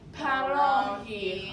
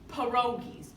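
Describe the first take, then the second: First: The word ends on a vowel, no s sound. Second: The word ends with an added s sound. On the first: The speaker calls it right. "very good" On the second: The speaker calls it wrong. "some people say pierogies. It's wrong"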